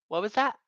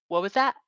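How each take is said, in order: No difference in how they are said.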